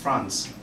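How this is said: It is said with a British accent. "the English pronounce it as France"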